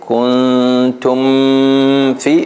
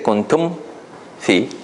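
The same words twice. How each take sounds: First: The m is held long and nasal before f. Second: The lips close briefly on the m before f. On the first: The speaker calls it wrong. "then you made a ghunna, right? Here it's too long" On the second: The speaker calls it right. "But if you say kuntum fi, then your lips close"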